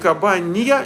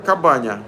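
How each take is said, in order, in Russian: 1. Перед последним гласным слышен мягкий глайд 'y'. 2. Перед последним гласным глайда нет. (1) "Не кабанья, не с мягким знаком" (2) "а просто как баня"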